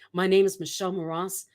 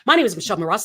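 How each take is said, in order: First: The phrase is said slowly and deliberately. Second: The phrase is said quickly without slowing down. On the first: The speaker calls it right. "Slow down for the things you want people to hear" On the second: The speaker calls it wrong. "A lot of people will say something as simple as"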